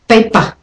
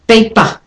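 No difference in how they are said.

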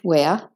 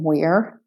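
First: It is said in a British accent. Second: It is said in an American accent. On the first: "and British wear" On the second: "So American wear"

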